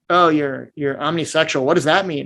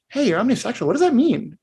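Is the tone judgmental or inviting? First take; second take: judgmental; inviting. First: It sounds judgmental and put off. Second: It sounds warm, curious and inviting.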